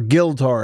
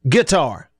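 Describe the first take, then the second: First: It is said with an added L sound. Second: It is said normally, without an L sound.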